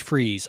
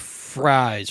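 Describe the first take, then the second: First: The name is said to rhyme with 'freeze'. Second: The name is said to rhyme with 'fries'. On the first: The speaker calls it right. "it's pronounced like freeze" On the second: The speaker calls it wrong. "I always get that wrong"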